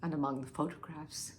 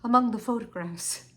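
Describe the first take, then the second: First: Low, very soft, trailing off; hushed dread. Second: Voiced firmly after a hushed attempt; steeled restart. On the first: Acted. Wife nears what she found among the photographs, hushed. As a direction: start the disclosure and let it die away. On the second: Wife forces herself to resume telling Henry, steeled. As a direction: make yourself say it, at normal volume.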